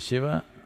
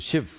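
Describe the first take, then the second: First: The name ends with its final vowel sounded. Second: The name ends without its final vowel. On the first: "If you say Shiva" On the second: "they'll say Shiv. ... the habit of cutting off the last syllable"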